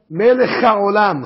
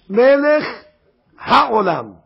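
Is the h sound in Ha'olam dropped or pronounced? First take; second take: dropped; pronounced. First: The h sound is swallowed in quick speech. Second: The h sound is clearly pronounced. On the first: The speaker calls it wrong. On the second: The speaker calls it right.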